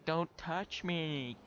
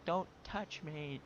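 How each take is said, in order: First: Drawn-out, higher, louder mock scream; imitated scream. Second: Slow, higher retold cry, held back; mild mock scream. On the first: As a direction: mimic the grumpy lady screeching slowly. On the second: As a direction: imitate her scream without full volume. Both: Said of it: "like, screaming".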